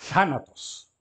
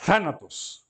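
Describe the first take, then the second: First: Thanatos with a breathy Th; model pronunciation. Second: Thanatos again, stress on the first syllable; model pronunciation repeated. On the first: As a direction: stress the first syllable of Thanatos. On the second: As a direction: repeat Thanatos for the class to copy. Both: Shown as a demonstration. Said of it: "Th, né?".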